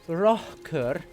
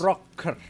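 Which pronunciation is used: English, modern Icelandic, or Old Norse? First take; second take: modern Icelandic; Old Norse. First: It is said in a modern Icelandic way. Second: It is said in a reconstructed Old Norse way. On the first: "In modern Icelandic, it would be a" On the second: "in reconstructed Old Norse, it would be a"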